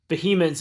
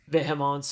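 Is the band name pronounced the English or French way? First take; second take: English; French. First: The name is pronounced the English way. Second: The name is pronounced the French way. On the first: It names a different death metal band. "it's not Vehemence is like that death metal band" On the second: "I had to say it like that"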